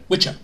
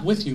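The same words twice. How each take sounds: First: "with you" run together as "witcha"; "with you" slurred into "WITCH-uh"; New York pronunciation. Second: Said in the usual way. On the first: Shown as a demonstration. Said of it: "That's how they talk back there in New York". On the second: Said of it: "but with you".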